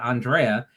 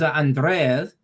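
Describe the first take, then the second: First: The name is said with a plain R. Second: The name is said with a rolled R. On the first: "It wasn't Andrea" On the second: "with the road R"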